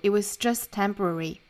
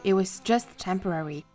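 First: It is read in an American accent. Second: It is read in a British accent. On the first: "美音版" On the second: "今天早读首先我们来用英音读一下"

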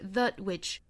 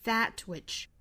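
First: The vowel in 'that' is reduced to schwa. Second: The vowel in 'that' is a full vowel. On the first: The speaker calls it wrong. "不能读成 a, 不是 that which" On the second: The speaker calls it right. "而应该是 a"

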